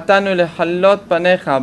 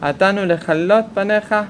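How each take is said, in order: First: The ch sound is pharyngeal, from the throat. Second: The ch sound is velar, like a khaf. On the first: We came to pray before you. The speaker calls it right. "באנו להתפלל" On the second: We came to destroy you. The speaker calls it wrong. "והם אומרים אתנו לחלות פניך כיליון השם ישמור"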